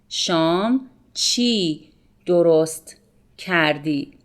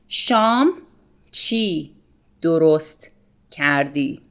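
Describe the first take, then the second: Both takes have the same delivery.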